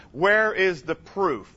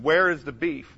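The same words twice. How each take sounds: First: Where is the proof drawn out slowly; slow emphatic question. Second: Said in the usual way. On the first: Shown as a demonstration. Preacher challenging the crowd, slow and deliberate. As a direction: lean on each word of Where is the proof. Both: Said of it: "That's the question".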